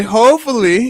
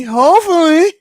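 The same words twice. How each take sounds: First: Said in the usual way. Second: "hopefully" said higher and louder with a rising tune; hopeful lift. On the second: Shown as a demonstration. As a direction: push "hopefully" up high, hoping hard.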